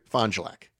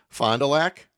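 First: The name is said in a shortened local way. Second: The name is said carefully and in full. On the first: This is how the locals say it. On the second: This is the standard form of the name.

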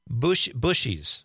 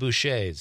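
First: The name is said the plain anglicized way. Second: The name is said the French-sounding way. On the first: This is how locals called the bakery. "There was a bakery in Marinette called... Bushies" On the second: This sounds fancier, like a pastry shop. "Which sounds French"

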